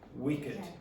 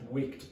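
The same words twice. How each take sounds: First: The ending is an extra id syllable. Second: The ending is a single t sound. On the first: The speaker calls it right. "this is pronounced wicked" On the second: The speaker calls it wrong. "You you should expect that should be pronounced wicked, but it's not"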